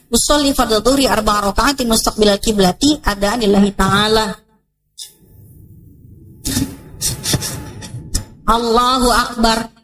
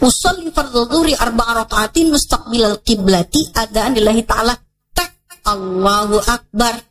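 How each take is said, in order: First: A long pause comes before Allahu Akbar. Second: Allahu Akbar follows the intention almost immediately.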